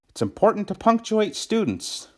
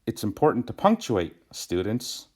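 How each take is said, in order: First: It runs straight through with no pause. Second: There is a pause before the last word. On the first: Students themselves should be punctuated. The speaker calls it wrong. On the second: The students are being told to punctuate. The speaker calls it right.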